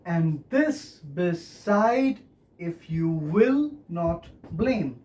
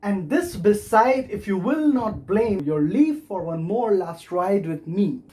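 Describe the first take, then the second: First: Very slow, four measured accents; slow demonstration of the metre, beat by beat; scanned verse. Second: Verse read through with clear beats; flowing verse reading, accents marked; reciting verse. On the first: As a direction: stretch it out accent by accent. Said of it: "So you have four accents". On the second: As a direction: recite the lines in an even metre. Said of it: "So the last two lines go like". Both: Shown as a demonstration.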